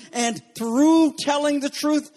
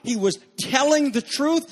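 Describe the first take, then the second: First: Slower, leaning hard on "through"; "through" stretched and stressed, higher. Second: Said in the usual way. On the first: Shown as a demonstration. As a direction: land on "through" and draw it out.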